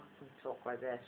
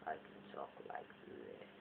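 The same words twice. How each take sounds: First: Soft, lightly put-on voice; voiced softly, as one of several voices; another voice. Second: Very low, hushed put-on voice; different voice. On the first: Showing viewers another voice, soft and lightly put on. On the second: Showing viewers another voice, very low and hushed. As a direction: drop right down, almost voiceless. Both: Shown as a demonstration. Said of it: "I do lots of different voices".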